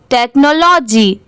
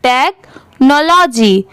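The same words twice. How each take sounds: First: Said in the usual way. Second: technology slowly, with a break after "tek"; split-word reading. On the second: Shown as a demonstration. Teacher showing how parts join, technology slow and split. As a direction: say technology as tek, pause, nology. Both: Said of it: "अब इसे साथ में कैसे पढ़ेंगे".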